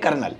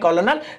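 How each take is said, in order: First: It is said as two syllables, ker-nel. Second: It is said as three syllables, ko-lo-nel. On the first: This is how the word is actually spoken. "लेकिन पढ़ेंगे कर्नल" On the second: This is how the word is spelled. "आप उन्हें लिखेंगे कॉलोनल"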